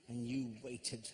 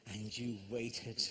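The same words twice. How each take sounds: The two takes are said the same way.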